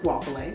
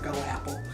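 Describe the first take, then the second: First: The name starts with a 'gwa' sound. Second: The name starts with a 'go' sound. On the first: The speaker calls it right. "but I think it's Guapole" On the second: The speaker calls it wrong. "She calls her Go Apple. I know that's not right"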